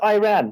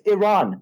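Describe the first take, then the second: First: The first syllable sounds like the word 'I'. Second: The first syllable does not sound like 'I'. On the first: The speaker calls it wrong. "not Iran, Michael" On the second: The speaker calls it right. "it's Iran"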